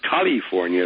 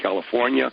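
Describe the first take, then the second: First: It is said in an imitated, put-on accent. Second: It is said in the speaker's normal accent.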